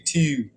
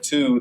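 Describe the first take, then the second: First: The vowel is drawn out in a Baltimore accent. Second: The vowel is plain, in a standard accent. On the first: "they say" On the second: "Instead of"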